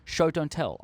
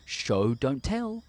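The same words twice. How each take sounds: First: Said in the usual way. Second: Slow, sing-song classroom recital; mock teacher drilling the rule; drawn-out schoolteacher maxim. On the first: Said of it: "just show us". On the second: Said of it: "it would be like".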